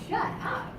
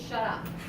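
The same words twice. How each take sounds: First: It sounds delighted and admiring. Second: It sounds hostile and forceful. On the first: The speaker is paying a compliment. "Like, oh my god, you look so good" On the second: The speaker really wants the other person silent. "Like, seriously, shut your face"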